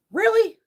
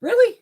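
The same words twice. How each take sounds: First: High, loud, falling flat in exasperation; a fed-up, final really; exasperated. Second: Much higher and louder, rising in disbelief; a shocked, rising really; incredulous. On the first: Complaining to viewers about the box, loud and falling. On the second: Reacting to the oversized box, loud and incredulous. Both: Real, not acted.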